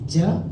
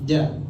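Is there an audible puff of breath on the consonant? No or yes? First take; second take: yes; no. First: The consonant releases an audible puff of breath. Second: The consonant is voiced with no puff of breath. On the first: The speaker calls it wrong. "bukan ja. Ja, dia akan keluarkan nafas" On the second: The speaker calls it right. "tidak akan mengeluarkan uh, nafas"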